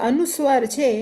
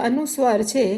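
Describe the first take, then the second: Both takes have the same delivery.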